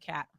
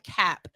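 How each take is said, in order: First: The final P is barely heard. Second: The final P is clearly released. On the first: The speaker calls it right. "You say cap" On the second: The speaker calls it wrong. "you don't say it like cap"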